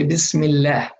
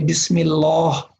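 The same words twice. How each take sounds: First: The L sound is light and thin. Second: The L sound is heavy and full-mouthed. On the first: The speaker calls it right. "You say Bismillah" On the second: The speaker calls it wrong. "We don't say Bismillah"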